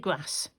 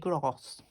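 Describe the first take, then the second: First: It is said in a northern English accent. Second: It is said in a posh southern English accent.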